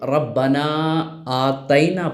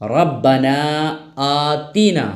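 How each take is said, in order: First: The second word has an 'ai' vowel in the middle. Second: The second word has a long 'ee' vowel in the middle. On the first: The speaker calls it wrong. "बहुत सारे लोग जब ये दुआ पढ़ते हैं तो रब्बना आतैना पढ़ते हैं, जबकि असल ये नहीं है" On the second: The speaker calls it right. "बल्कि हकीकत क्या है?"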